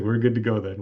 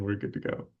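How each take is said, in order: First: Said in the usual way. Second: Murmured softly to himself; quiet. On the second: Real, not acted. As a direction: say it under your breath. Repeats phrase quieter to himself.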